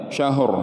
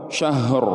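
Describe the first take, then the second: The two takes are said the same way.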